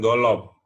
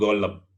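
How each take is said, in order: First: An extra 'o' vowel follows the L sound. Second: An extra 'e' vowel follows the L sound. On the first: "bukan golop" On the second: "bukan golep"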